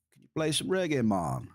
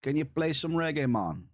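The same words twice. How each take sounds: First: Light mock Swedish accent, reggae sung out high. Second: Playful mock Swedish accent, play lifted high. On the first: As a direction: imitate a chatter's Swedish accent, playful. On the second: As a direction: quote the chatter in a Swedish accent. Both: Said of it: "with a Swedish accent".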